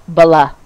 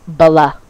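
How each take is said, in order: First: A vowel is inserted between b and l. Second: The same.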